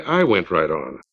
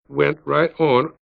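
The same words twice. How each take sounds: First: "I" pressed low and firm as a self-correction; stress on I. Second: Said in the usual way. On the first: A narrator's reading. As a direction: lean on "I" in "I went right on". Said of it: "or rather, I should say". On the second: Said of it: "I should say, I went right on".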